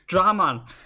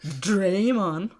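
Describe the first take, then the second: First: The first vowel sounds like 'ah'. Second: The first vowel sounds like 'ay'. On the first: The speaker calls it right. "It's Dramon" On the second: The speaker calls it wrong. "not Draymon"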